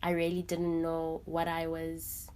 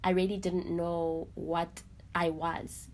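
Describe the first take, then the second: Both takes have the same delivery.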